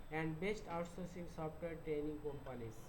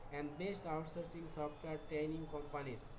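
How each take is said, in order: Both takes have the same delivery.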